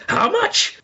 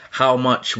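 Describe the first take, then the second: First: "How much?" with a huge incredulous rise on "much"; indignant British how much. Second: Said in the usual way. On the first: Retold or imitated. Mimicking a customer stunned by a price, "How much?" rising high. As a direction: mimic a shocked shopper: "How much?" soaring up at the end. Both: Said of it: "with the voice going up at the end".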